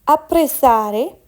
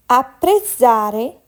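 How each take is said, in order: Both takes have the same delivery.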